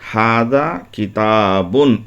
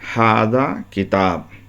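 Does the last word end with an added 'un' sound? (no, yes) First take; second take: yes; no. First: The last word ends with an added 'un' sound. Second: The last word ends without any added vowel sound. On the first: The full grammatical case ending is pronounced. "एराब अगर हम देकर पढ़ते हैं" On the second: The case ending is dropped in the pausal form. "साइलेंट करके पढ़ना चाहते हैं"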